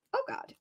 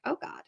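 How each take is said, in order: First: Rising dread. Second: Dread. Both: Acted. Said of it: "she's like".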